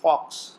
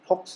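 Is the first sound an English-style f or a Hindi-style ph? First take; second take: English f; Hindi ph. First: The first sound is an English-style f. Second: The first sound is a Hindi-style ph. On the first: The speaker calls it right. "जब हम उसको अंग्रेजी में बोलते हैं तो आप देखिए, नोटिस करिए" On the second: The speaker calls it wrong. "फॉक्स नहीं बोलते"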